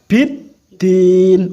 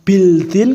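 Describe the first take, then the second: First: The l is silent and the d is doubled. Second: The l is clearly pronounced before the d. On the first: The speaker calls it right. "harus biddin" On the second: The speaker calls it wrong. "ora bildin"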